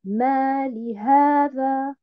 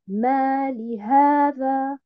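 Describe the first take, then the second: First: There is a break after ma, li joins the next word. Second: The same.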